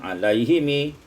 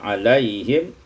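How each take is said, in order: First: The word ends with an added i vowel. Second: The word ends on a closed m sound. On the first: The reader continues into the next word. "kalau diwasalkan" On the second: The reader stops after this word. "kalau diwakafkan"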